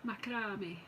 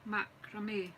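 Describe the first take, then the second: First: "macrame" as MAK-a-ra-mee, falling; Scottish pronunciation. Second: "Macrame" said as MAK-ra-may, falling; French-style pronunciation. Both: Shown as a demonstration. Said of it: "my wee Scottish accent".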